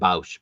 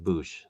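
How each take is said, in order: First: The vowel sounds like 'ow' in 'cow'. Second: The vowel sounds like 'oo' in 'boot'. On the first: This is how the speaker personally says it. "I always pronounce it Bausch" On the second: This is how most other people say it. "but everybody says Boosh"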